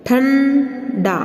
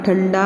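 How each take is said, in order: First: ठंडा with a long hummed "ṭhan", then "da"; very slow, nasal ठंडा in two parts; syllable-split nasal demo. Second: Said in the usual way. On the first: Shown as a demonstration. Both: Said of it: "हम नासिका द्वारा इसका उच्चारण".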